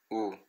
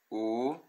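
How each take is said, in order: First: "U" short and soft; brief Latin short "U"; short vowel u. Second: "U" held long, slow; drawn-out Latin long "U"; long vowel u. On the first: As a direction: clip the "U" quickly. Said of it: "e o breve". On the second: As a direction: stretch the "U" out. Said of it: "tem o longo". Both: Shown as a demonstration.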